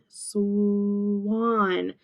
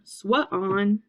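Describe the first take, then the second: First: The sounds are blended into one smooth syllable. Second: The word is broken into two separate parts. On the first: The speaker calls it right. "We say sw, swan" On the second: The speaker calls it wrong. "We don't want to say swa on"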